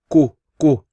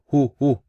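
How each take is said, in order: First: It starts with a plain k sound. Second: It starts with a breathy h sound. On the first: "they pronounce this incorrectly and they say ku ku" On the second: "or hu hu"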